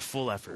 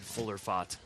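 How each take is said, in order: First: The name sounds like 'full effort'. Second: The name sounds like 'fuller fott'. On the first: The speaker calls it right. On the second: The speaker calls it wrong.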